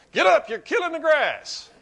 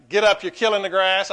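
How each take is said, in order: First: Much higher, louder mock coach yell through a laugh; hammed-up coach. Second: A mock coach barking, louder; coach's yell. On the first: Coach yells at the whining player, hammed-up and laughing. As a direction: bark it at him, laughing at the memory. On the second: Coach yells at a player lying on the field, mock bark. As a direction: shout it like an old-school football coach. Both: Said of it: "they'd say things like".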